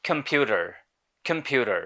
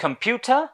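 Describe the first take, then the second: First: American accent with the final r sounded; American pronunciation. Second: British "computer", high and rising, no final r; British accent with crisp t, pitched up for contrast; British pronunciation. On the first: Teacher contrasts two accents, American second. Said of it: "in American English it is pronounced as". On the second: Teacher contrasts two accents, British first. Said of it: "British ইংলিশে রটাকে উচ্চারণ করা হয় না". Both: Shown as a demonstration.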